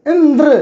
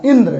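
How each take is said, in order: First: Indra pronounced emphatically, final द्र pushed hard; stress on द्र. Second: Said in the usual way. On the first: Shown as a demonstration. Teacher demonstrating stress to pupils, stress on द्र in Indra. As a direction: hit the द्र closing Indra. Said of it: "ये ज़्यादा बल लग रहा है". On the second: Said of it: "जैसे इंद्र एक शब्द हुआ".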